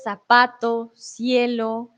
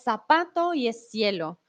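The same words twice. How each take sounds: First: "zapato" and "cielo" with the z and c said as the English th sound; Castilian Spanish pronunciation. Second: "zapato" and "cielo" with the z and c said as a plain s; seseo, no th sound in "zapato" and "cielo"; Latin American Spanish pronunciation. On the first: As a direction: clear Spain-style lisped "zapato", "cielo". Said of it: "aquí les traje un ejemplo". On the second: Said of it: "Como les digo, en Latinoamérica". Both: Shown as a demonstration.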